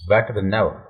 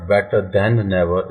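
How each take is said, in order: First: 'Than' is reduced with a short vowel. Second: 'Than' is said in full with a long vowel. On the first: The speaker calls it right. "ये दैन जो है इसकी sound को हम short करेंगे" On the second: The speaker calls it wrong. "It's not better देन never"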